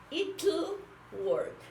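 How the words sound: British pronunciation, with the T clearly sounded. "sería la pronunciación británica"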